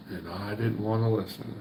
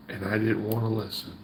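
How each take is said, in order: Both takes have the same delivery.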